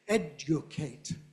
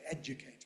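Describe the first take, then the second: First: The second syllable has a short oo vowel. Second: The second syllable has a weak schwa vowel. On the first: "I don't say educate" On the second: "I say educate with a schwa"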